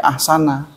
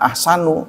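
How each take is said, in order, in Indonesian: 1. Kata ini berakhir dengan vokal 'a'. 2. Kata ini berakhir dengan vokal 'u'. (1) "tapi ahsana" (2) "jangan ahsanu"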